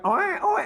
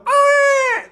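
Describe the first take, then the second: First: The cry is soft and weak. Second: The cry is loud and strong.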